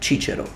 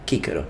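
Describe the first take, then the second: First: The name uses ecclesiastical Latin pronunciation. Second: The name uses classical Latin pronunciation. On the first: "in ecclesiastical pronunciation of Latin, his name will be pronounced Cicero" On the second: "I am using classical pronunciation for his name"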